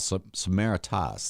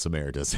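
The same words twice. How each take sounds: First: The name is said with its careful, intended pronunciation. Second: The name is said with a Midwestern accent. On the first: The speaker calls it right. "that's the correct way to say it" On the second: The speaker calls it wrong. "I'm gonna get my Midwestern accent in there"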